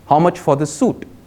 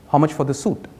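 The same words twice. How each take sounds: First: It is said louder. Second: It is said at normal, softer volume.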